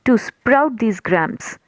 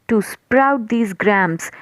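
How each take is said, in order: No difference in how they are said.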